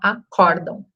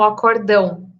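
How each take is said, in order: First: The stress falls on the second-to-last syllable. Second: The stress falls on the last syllable. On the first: The speaker calls it right. "entender que é uma paroxítona, a gente deveria falar acórdão" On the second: The speaker calls it wrong. "a gente vê muito na mídia, né, muitas vezes falando"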